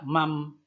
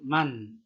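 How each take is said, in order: First: The word ends with an m sound. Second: The word ends with a clear n sound. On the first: The speaker calls it wrong. "tidak mam" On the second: The speaker calls it right. "tapi man... n-nya jelas"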